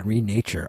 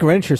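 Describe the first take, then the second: First: "Renature" said as ree-NAY-chur; "Renature" with long ee, then NAY-chur; correct pronunciation. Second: "Renature" said as REN-uh-chur; "Renature" squashed to sound like "denture"; mistaken pronunciation. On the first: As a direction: say "Renature" as "re" plus "nature". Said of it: "Renature sounds better than Renature". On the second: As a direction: stress the start of "Renature": REN-chur, short e. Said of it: "sounds better than Renature". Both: Shown as a demonstration.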